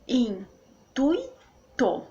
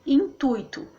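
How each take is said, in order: First: "Intuito" as in-tui-to, very slowly; syllable by syllable. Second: Said in the usual way. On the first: Shown as a demonstration. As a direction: keep tui together in Intuito, pauses either side. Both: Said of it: "O U e o I ficam juntos".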